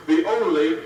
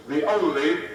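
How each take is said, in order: First: "only" hit hard and louder; heavy stress on only. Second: "only" lifted and rising; stress on only. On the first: Speaker to the students, "only" hammered loud. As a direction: punch the word "only" loudly. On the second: Speaker stressing to the students, "only" rising. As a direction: lean on "only" with a lift at the end. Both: Real, not acted. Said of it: "underline the word only".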